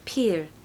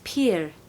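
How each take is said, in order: First: The vowel rhymes with peer. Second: The vowel rhymes with peer.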